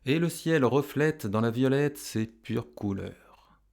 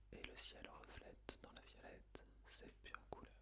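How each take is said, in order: First: Said in the usual way. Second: Barely audible whisper; whispered echo. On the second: Shown as a demonstration. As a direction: whisper the verse as a prompt for pupils. Whispered echo in pupils' turn.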